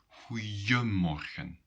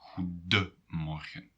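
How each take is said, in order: First: The middle d is replaced by a y glide. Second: The middle is said with a clear d sound. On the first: This is the casual spoken form. "in spoken language, people sometimes say goeiemorgen" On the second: This is the full written form. "when you write it down, then it will always be goedemorgen"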